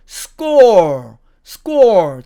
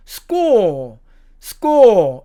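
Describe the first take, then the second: First: SCORE punched out with a final r; American score. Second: SCORE as "skaw", no r; British score. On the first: Teacher showing American pronunciation, SCORE with clear r. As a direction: end SCORE on a curled r. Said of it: "미국식으로 발음하면". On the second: Teacher showing British pronunciation, SCORE without r. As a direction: hold the open vowel of SCORE and drop the r. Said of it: "영국식으로 발음하면". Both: Shown as a demonstration.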